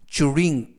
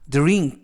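First: The dr starts with a ch-like sound. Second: The dr starts with a plain d sound. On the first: "쭈르라고 발음하기도 합니다" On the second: "DR은 이중 자음으로써 드르"

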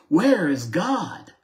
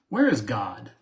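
First: It is asked loudly with a raised voice. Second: It is asked sternly at a moderate volume.

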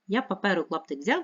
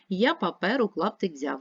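First: It is read at a very fast pace. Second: It is read at a fast pace. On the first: "Ще швидше" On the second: "Швидше"

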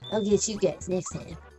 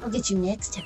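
First: It is said in an exaggerated Cartman voice. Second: It is said in a plain, normal voice.

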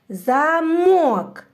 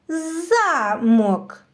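First: The stress is on the second syllable. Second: The stress is on the first syllable. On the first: "Який склад наголошується? Так, другий" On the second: "переставимо наголос і промовимо це слово з іншим наголосом"

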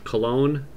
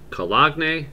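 First: The word sounds like the fragrance name. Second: The word sounds different from the fragrance name. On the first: The speaker calls it right. "like the fragrance, like the men's fragrance" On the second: The speaker calls it wrong. "Doubt that's correct"

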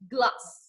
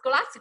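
First: The l is made with the tongue pulled back. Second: The l is made with the tongue pushed forward. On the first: The speaker calls it right. "nó thụt lưỡi lại nó chỉ ra chữ glass" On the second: The speaker calls it wrong. "Không phải như thế á"

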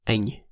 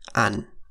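First: A Central accent, ending in an ang sound. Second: A Southern accent, ending in an an sound.

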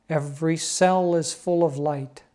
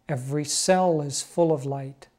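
The two takes are said the same way.

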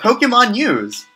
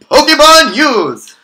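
First: It is said plainly, in a reading voice. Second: It is said loudly, with dramatic announcer flair.

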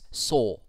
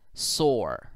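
First: It is said in a British accent. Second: It is said in a non-British accent. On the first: "if you were to pronounce it in the British way" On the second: "this part reads sore"

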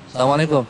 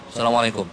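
First: It is said warmly, with a smile. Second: It is said coldly, without a smile.

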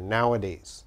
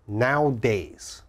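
First: It has three syllables, with a middle vowel. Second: It has two syllables, with no middle vowel. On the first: The speaker calls it right. "You have to say nowa. There's an A there" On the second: The speaker calls it wrong. "A lot of my students say nowadays. Nowadays is wrong"

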